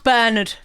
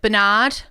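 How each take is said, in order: First: The name is said the European way. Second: The name is said the American way. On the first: "but that's Bernard for me" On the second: "I think the Americans pronounce it Bernard"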